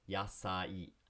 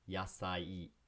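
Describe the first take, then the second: No difference in how they are said.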